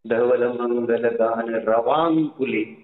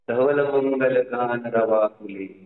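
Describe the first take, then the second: First: The last word is one word, 'ravakule'. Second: The last word is split as 'rava phule'. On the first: The speaker calls it right. "आहे ना" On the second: The speaker calls it wrong. "ते सुद्धा म्हणताना नीट म्हणत नाहीत लोक"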